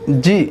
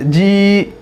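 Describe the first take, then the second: First: The vowel is short and quick. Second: The vowel is drawn out long. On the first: The speaker calls it right. "तो जल्दी पढ़ना है" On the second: The speaker calls it wrong. "इस तरह खींचकर नहीं पढ़ा जाएगा"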